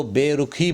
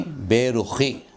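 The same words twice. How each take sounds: First: बेरुखी with an aspirated k, "be-ru-khee"; wrong pronunciation. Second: बेरुखी slowly, with a scraped throat x as in "loch"; correct pronunciation. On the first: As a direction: say बेरुखी with k plus a puff of air. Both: Shown as a demonstration. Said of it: "बेरुखी नहीं".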